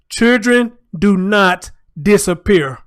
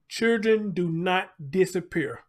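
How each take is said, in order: First: It is said louder. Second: It is said at normal volume.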